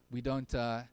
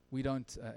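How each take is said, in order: Both takes have the same delivery.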